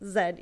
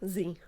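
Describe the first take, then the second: First: The letter is said the Canadian way. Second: The letter is said the American way.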